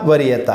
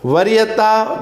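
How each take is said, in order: First: वरीयता sung with a falling end; falling take. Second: वरीयता sung with a rising end; वरीयता ending on a rise; rising take. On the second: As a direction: lift the last syllable of वरीयता up. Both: Pretend. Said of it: "अपने आप ही चिल्ला चिल्ला के कह रहा है".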